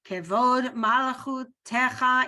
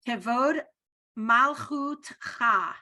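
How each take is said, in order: First: The last word has an added vowel before 'cha'. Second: The last word has no vowel before 'cha'. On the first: This form fits the song better. "when you sing it, it's easier to to utter something under there" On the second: This is the standard spoken form. "is how you pronounce it"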